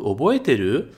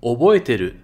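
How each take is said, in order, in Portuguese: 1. A voz sobe no final. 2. A voz desce no final. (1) "Fazer para cima" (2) "E se for para baixo, é uma resposta"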